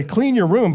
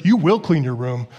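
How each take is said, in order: First: Said in the usual way. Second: Lower, insistent WILL in "You will clean your room"; emphatic mom command. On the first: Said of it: "Mom can say". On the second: Acted. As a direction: lay down the law as mom, pitched down. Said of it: "but when she says".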